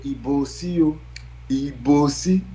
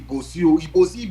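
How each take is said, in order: First: It is a lilting, melodic, song-like call. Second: It is an urgent, alarmed shout for help. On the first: It is a festive call and people dance. "it becomes a song" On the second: There is danger and people should flee. "When you shout like that, people will run"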